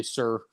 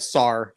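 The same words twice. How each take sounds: First: SIR with a closed "er" vowel, softly. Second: SAR with an open "ah"; "sar" vowel. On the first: Retold or imitated. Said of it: "you always say". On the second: Shown as a demonstration. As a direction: say "sar" like the start of sorry. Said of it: "Instead of".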